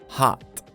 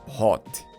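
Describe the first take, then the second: First: The vowel sounds like an open 'ah'. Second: The vowel sounds like a rounded 'oh'. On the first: The speaker calls it right. "Notice that letter O doesn't sound like O, but A" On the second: The speaker calls it wrong. "Not hot"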